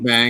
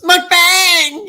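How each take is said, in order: First: The word is said plainly, without extra flair. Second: The word is said with lively, exaggerated flair. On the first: "I say" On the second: "Darren goes mukbang. You know, he gets into it"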